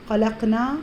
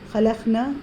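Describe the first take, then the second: First: The final vowel is drawn out long. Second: The final vowel is cut short. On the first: We created. The speaker calls it right. "हमने पैदा किया" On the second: Those women created. The speaker calls it wrong. "रवानी में, गड़बड़ में"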